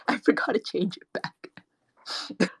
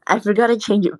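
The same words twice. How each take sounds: First: Breathy disguised whisper filter; slow whispered voice changer; gossip whisper. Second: Said in the usual way. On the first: Real, not acted.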